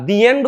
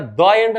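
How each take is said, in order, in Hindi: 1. 'The' को लंबे 'ee' स्वर के साथ बोला जाता है। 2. 'The' को छोटे 'uh' स्वर के साथ बोला जाता है। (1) "मूवी का दी एंड होता है" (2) "कहानी का द एंड नहीं होता"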